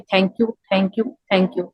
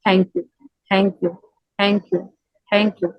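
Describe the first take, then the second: First: It is said plainly, without much feeling. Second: It is said softly, with deep heartfelt feeling.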